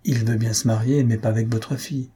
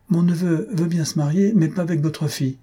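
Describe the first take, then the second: First: Even, understated delivery of a reply; matter-of-fact suggested wording. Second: Higher-pitched, incredulous recital of a reply; indignant mock quote. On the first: Acted. Someone rehearsing the refusal for the parents, matter-of-fact. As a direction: offer it plainly as a reasonable phrasing. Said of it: "Il y a toujours une façon de dire les choses". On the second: Aunt imagining telling the parents of the refusal, indignant. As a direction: quote it as something absurd to say.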